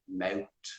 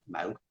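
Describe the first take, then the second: First: The word ends with a hard t sound. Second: The word ends with a soft th sound. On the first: "in Dublin it's a bit more aggressive, mout, mout, and they don't pronounce that T H" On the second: "in in the south we say mouth"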